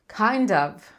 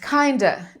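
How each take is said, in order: First: The 'of' is said fully and clearly. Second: The 'of' shrinks to a weak 'uh' sound. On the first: "em vez de eu falar kind of" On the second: "eu vou só falar a. O of vai virar a"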